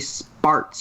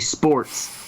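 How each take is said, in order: First: The vowel sounds like the one in 'car'. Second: The vowel sounds like the one in 'core'. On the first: The speaker calls it wrong. "you don't say sparts" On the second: The speaker calls it right. "you say sports"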